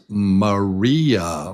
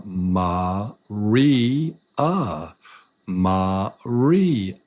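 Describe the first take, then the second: First: Said in the usual way. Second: "Maria" broken into three long, separate beats; syllable by syllable. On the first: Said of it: "Let's say your name is". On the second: Shown as a demonstration. Teacher trying a learner's name, "Maria" in three separated syllables. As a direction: space out each syllable of "Maria". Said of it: "There's three".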